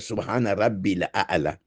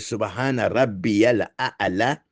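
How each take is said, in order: First: Rabbi links to al-a'la directly, without ya. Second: Rabbi links to al-a'la with a ya sound. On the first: The speaker calls it wrong. "ou bien" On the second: The speaker calls it right. "a bɛ fɔ de subhana rabbiyal a'la"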